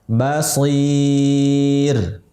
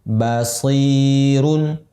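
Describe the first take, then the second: First: The vowel before the ending is held long. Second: The vowel before the ending is held briefly. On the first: The reader stops at this word. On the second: The word is joined to what follows.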